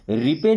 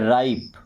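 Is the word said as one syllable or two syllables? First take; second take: two syllables; one syllable. First: It is said as two syllables, ri-pe. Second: It is said as one syllable with 'eye'. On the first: The speaker calls it wrong. "इसे रिपे नहीं पढ़ते हैं" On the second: The speaker calls it right. "क्या पढ़ते हैं राइप"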